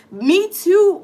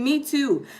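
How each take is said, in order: First: Louder, higher me too; emphatic agreement. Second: Said in the usual way. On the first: Real, not acted. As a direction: call Me too out with a push. Agreeing with One Love.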